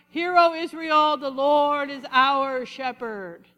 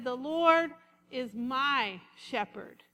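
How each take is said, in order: First: Loud, slow, solemn mock-holy proclamation; pious prayer voice. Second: "my" stretched slow and leaned on; slow right down and land on "my"; stress on my. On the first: Preacher mocking people whose voice changes when they pray, slow and grand. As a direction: put on the churchy praying voice. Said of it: "their voice changes". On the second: Shown as a demonstration. Preacher showing David made the psalm personal, leaning on "my". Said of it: "But he didn't say that".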